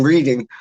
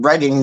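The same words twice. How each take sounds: First: "reading" with a long ee; Reading mispronounced as "reeding". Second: Said in the usual way. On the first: Shown as a demonstration. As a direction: say "reading" like the verb, REE-ding. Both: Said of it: "like me calling fucking Reading reading".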